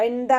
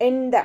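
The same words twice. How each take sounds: No difference in how they are said.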